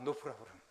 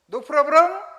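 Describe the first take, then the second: First: The voice falls at the end. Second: The voice rises at the end. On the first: It is a statement that there is no problem. "이게 그냥 평소문으로 하면은 문제 없어" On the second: It is a question asking if there is a problem. "뒤에 말을 끄집어 올리면 의문문이 돼요"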